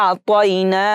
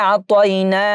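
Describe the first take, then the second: The two takes are said the same way.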